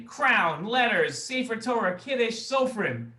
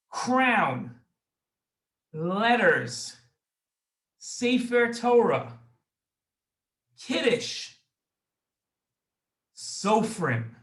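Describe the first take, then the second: First: Rattled off quickly in one breath, no pauses; said fast. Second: Each word alone with long pauses between; slow and deliberate, one word at a time, like dictation; said slowly. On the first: Host quizzing kids on the memory words, fast. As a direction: race through the list at speed. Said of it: "then fast". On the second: Host reading the memory words to kids, slowly. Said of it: "I'm gonna say them slowly first". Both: Shown as a demonstration.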